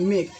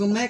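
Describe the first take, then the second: First: The vowel is long, as in 'day'. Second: The vowel is short, as in 'cat'. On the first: The speaker calls it right. "इसको हम लोग क्या बोलेंगे मेक" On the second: The speaker calls it wrong. "इसको हम लोग मैक ना बोलेंगे"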